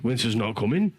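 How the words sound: It is said in a surprised northern accent.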